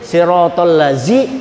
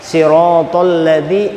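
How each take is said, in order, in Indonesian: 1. Bunyinya 'z' seperti pada 'zoo'. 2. Bunyinya 'th' seperti pada 'this'. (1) "itu huruf zai" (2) "zal di ujung gigi, di ujung lidah, ujung lidah kena gigi kiri atas"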